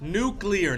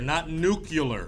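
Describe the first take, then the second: First: The word is said as new-clear. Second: The word is said as new-cue-lar. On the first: The speaker calls it right. "You say it correctly" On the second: The speaker calls it wrong. "Don't you dare say nuclear"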